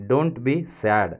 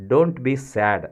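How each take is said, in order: Both takes have the same delivery.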